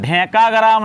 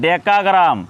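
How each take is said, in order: First: It starts with a heavy, breathy dh sound. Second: It starts with a plain, light d sound. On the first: The speaker calls it wrong. "ढेकाग्राम नहीं" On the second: The speaker calls it right.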